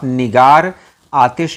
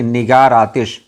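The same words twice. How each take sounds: First: The two words are said separately, without linking. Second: The r runs straight into the following vowel. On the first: "आप निगार आतिश नहीं पढ़ रहे हैं" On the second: "बल्कि निगार आतिश"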